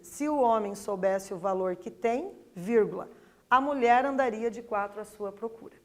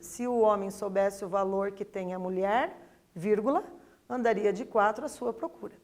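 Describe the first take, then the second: First: The break comes after the word tem. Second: The break comes after the word mulher.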